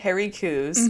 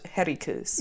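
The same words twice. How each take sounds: First: It is said in a plain accent. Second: It is said in a Scottish accent.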